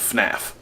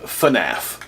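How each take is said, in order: First: It is said without the extra syllable. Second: It is said with an extra syllable. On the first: The speaker calls it right. "There's no A between the F and the N" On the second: The speaker calls it wrong. "throwing in an extra syllable"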